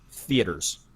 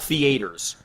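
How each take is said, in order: First: It is said in a northern US accent. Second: It is said in a Southern US accent.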